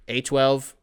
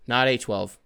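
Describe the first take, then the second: First: "A twelve" as an ordinary first mention; "A twelve" said simply, no extra push. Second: "not" leaned on to correct "A twelve"; stress on not. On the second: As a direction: push "not", then "A twelve" flat. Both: Shown as a demonstration.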